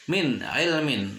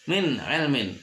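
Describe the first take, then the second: The two takes are said the same way.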